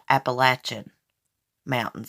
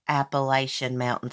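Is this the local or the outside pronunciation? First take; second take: local; outside. First: It is pronounced the way locals say it. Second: It is pronounced the way outsiders say it. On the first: This is how people in the region say it. The speaker calls it right. "We call it Appalachian Mountains. That's how we pronounce it" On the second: This is how people elsewhere say it. The speaker calls it wrong. "We don't call it a- Appalachian Mountains here"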